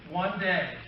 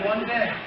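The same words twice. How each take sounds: First: It is said in a very low, deep voice. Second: It is said in a very high, squeaky voice. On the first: "I want you to do a really super low voice" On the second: "Let's go really high pitched, okay? Mickey Mouse"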